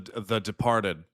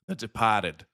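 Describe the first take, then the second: First: It is said in the speaker's ordinary accent. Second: It is said in a Boston accent.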